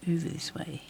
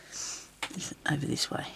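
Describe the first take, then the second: First: Said in the usual way. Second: Slow unvoiced whisper to herself. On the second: Real, not acted. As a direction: murmur it under your breath, slowly. Talking to herself while searching.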